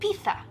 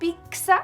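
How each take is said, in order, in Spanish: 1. La consonante del medio no tiene sonido ks. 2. La consonante del medio suena como ks. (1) "En español, si fuera algo diferente que pizza, sería pizza" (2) "eso se escribiría P I K X A"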